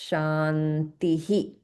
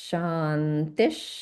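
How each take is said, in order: First: The word ends with an echoed hi syllable. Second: The word ends in a short s-like hiss. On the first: The word ends the line. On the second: The word is inside the line.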